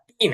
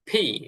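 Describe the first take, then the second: First: The p is said without a puff of air. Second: The p is said with a puff of air. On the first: The speaker calls it wrong. "এটা পি না" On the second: The speaker calls it right. "প এবং ফ এর মাঝামাঝি একটা ফি। আমাদের মুখ থেকে বাতাস বের হবে"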